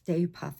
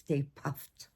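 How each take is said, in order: First: The name ends without a final t sound. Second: The name ends with a final t sound. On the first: The speaker calls it wrong. "It's not Stay Puff" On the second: The speaker calls it right. "it's Stay Puffed. P U F T"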